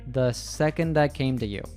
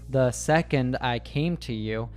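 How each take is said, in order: First: The words are linked with reduced vowels. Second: Each word is said separately and fully. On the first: "She said" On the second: "She didn't say"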